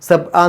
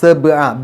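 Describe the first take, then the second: First: The b sound is cut off without release. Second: The b sound is released with an echo. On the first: The speaker calls it wrong. "സബ്അ എന്ന് പറഞ്ഞു പോയാൽ പോരാ" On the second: The speaker calls it right. "ബ് എന്നുള്ള ശബ്ദം പുറത്തേക്ക് കേൾക്കണം"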